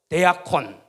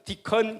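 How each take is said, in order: First: Every written letter is sounded out separately. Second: It is said with the English pronunciation. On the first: "그대로 읽으시면은 데아콘이잖아요" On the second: "영어로 읽을 때는 디컨 그러면 됩니다"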